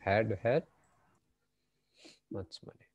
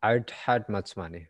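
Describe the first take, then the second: First: The first 'had' is said in full. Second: 'I had' is run together as 'I'd'. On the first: The speaker calls it wrong. "হ্যাড হ্যাড এভাবে তারা কখনোই বলবে না" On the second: The speaker calls it right. "আইড একসাথে বলে ফেলতো"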